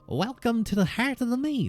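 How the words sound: It is said in a plainer, rejected voice.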